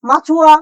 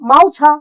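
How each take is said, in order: First: The u-vowel is heard after the ch sound. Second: The u-vowel is heard before the ch sound.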